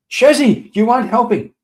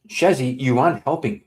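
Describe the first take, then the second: First: Much higher and louder, scolding at full pitch; exasperated high yell. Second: Said in the usual way. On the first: Real, not acted. Streamer yells at chatter Shazzy for making it worse, high exasperated yell. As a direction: cry out in mock despair at her.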